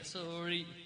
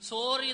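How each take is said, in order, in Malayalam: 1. r native പോലെയുള്ള രീതിയിലാണ് പറഞ്ഞിരിക്കുന്നത്. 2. r പ്രാദേശിക രീതിയിലാണ് പറഞ്ഞിരിക്കുന്നത്. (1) "ആറ് അങ്ങനെയാ ഉച്ചരിക്കുക" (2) "പഴയ ഇംഗ്ലീഷ് ഒന്നും പറഞ്ഞാൽ ശരിയാവില്ല"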